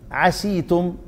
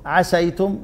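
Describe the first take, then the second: First: عسيتم said with a long i after the s, as 'asītum, softly; kasra reading. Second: عسيتم said with an open s, as 'asaytum, softly rising; fatha reading. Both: Shown as a demonstration. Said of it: "دي لغة ودي لغة".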